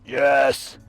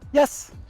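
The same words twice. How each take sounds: First: It is said in a deep, growling voice. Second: It is said in a high, happy voice. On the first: The speaker calls it wrong. "Try to avoid using a deep voice when you're training your dogs. Don't do this. ... It sounds like a growl" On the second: The speaker calls it right. "We want to have it nice, high pitch, happy sounds"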